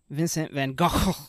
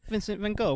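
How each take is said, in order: First: The name is pronounced the Dutch way. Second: The name is pronounced the French way. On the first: "in Dutch he's known as" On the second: "In the French, it's"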